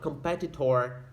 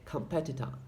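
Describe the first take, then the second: First: The final vowel is a full clear vowel. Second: The final vowel is a reduced schwa. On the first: The speaker calls it wrong. "you say not competitor" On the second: The speaker calls it right. "which sounds like a a schwa"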